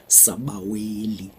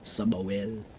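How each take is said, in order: First: The word ends with a final vowel sound. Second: The word ends without the final vowel sound. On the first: "Easy to pronounce" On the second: "the trendy version. you just remove all the vowels"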